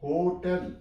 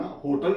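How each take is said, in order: First: होटल as "ho-TEL", clear E; correct HOTEL vowel. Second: होटल as quick "HO-tul", weak second vowel; wrong HOTEL vowel. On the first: Teacher modelling the right reading, "ho-TEL". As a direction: give होटल a full "tel" ending. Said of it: "इसे होटल नहीं आपने पढ़ना". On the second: Teacher showing learners the reading to avoid, "HO-tul". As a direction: reduce the end of होटल to "tul". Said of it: "होटल नहीं पढ़ना". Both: Shown as a demonstration.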